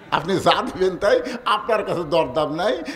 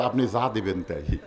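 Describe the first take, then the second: First: Said in the usual way. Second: Low, soft voice giving in; lightly acted meek surrender; cowed butcher. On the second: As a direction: yield meekly, mock-frightened. Butcher yields under a raised blade.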